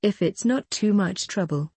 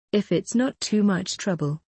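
The two takes are said the same way.

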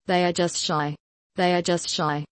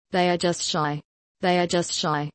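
The two takes are said the same way.

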